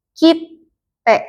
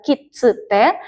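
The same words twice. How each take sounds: First: "kitte" dengan jeda singkat sebelum te, pelan; kitte dengan t ganda. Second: "kitsute" dengan tsu diucapkan penuh; kitsute salah. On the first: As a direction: tahan konsonan t sebentar dalam "kitte". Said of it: "tapi jadi kitte". ("kitte" diucapkan pelan dengan t ganda) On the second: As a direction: sebut "tsu" jelas dalam "kitsute". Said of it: "Dibacanya bukan kitsute". ("kitsute" dibaca tiga suku kata dengan tsu) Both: Shown as a demonstration.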